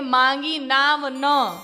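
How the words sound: There is a pause after "na".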